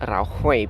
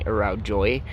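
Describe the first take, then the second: First: The J is sounded like an H. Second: The J is sounded like an English J. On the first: The speaker calls it right. "it's actually pronounced Araujoi because the J is pronounced as an H" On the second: The speaker calls it wrong. "if you're English speaking, it sounds like it's saying Araujoy"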